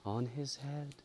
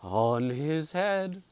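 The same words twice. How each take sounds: First: Soft, high, distant echo; the hall echoes again, softer and far; faint echo. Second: Slow, high, hollow echo; the hall echoes the curse, slow and hollow; ghostly echo. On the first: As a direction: breathe it back faintly from far off. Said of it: "it repeated quite". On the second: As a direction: let it hang like a far ghostly echo. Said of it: "echoed the dim hall". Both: A narrator's reading.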